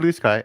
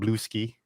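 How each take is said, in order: First: The name ends with the word sky. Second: The name ends with a skee sound.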